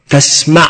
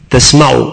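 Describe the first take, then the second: First: The verb ends with a final 'a' vowel. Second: The verb ends with a final 'u' vowel. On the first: "ويمكن أن يكون على النصب" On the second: "إذا أتيت بالرفع في تسمع فهذا على القياس"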